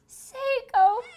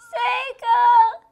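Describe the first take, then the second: First: It is said softly, in a hushed voice. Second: It is said firmly and demandingly.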